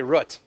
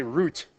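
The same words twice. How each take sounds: First: Root said with a short oo, as in foot. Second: Root said with a long oo, as in boot. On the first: Teacher polling the class on root, short oo like foot. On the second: Teacher polling the class on root, long oo like boot. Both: Shown as a demonstration. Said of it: "Root or root?".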